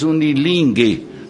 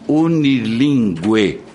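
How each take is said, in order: First: The U after the G is silent. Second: The U after the G is pronounced. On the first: This is how it is said in Portugal. "sem a pronúncia do U" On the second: This is how it is said in Brazil. "nós no Brasil dizemos"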